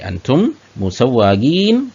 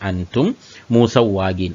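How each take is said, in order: First: It is said with a questioning intonation. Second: It is said as a plain statement. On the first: Aren't you drivers? "ചോദ്യരൂപത്തിൽ ചോദിച്ചാൽ മതി" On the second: You are not drivers. "നിങ്ങൾ ഡ്രൈവേഴ്സ് അല്ല"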